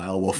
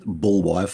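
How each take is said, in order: First: The name is said like 'Bay-o-wulf'. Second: The name is said like 'Bull-wife'. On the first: This is the familiar version of the name. "screw it, I'm calling him" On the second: This follows the source's version of the name. "as it's sort of pronounced in the book and the film"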